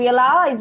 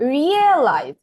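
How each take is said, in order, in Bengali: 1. Stress শেষ সিলেবলে পড়ে। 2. Stress শব্দের শুরুর দিকে পড়ে। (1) "শেষে আমি স্ট্রেস দিয়েছিলাম এই জায়গায়" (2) "কোথায় স্ট্রেস দিয়েছি, এইটাতে কিন্তু"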